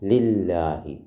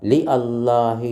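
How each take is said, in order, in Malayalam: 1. 'Allah' ലെ 'a' ഒഴിവാക്കി ചേർത്ത് ഉച്ചരിക്കുന്നു. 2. 'Allah' ലെ 'a' വേറെ ആയി ഉച്ചരിക്കുന്നു. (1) "പിന്നെയോ ലില്ലാഹി" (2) "ലി അല്ലാഹി എന്ന് പറയുന്നുണ്ടോ? ഇല്ല"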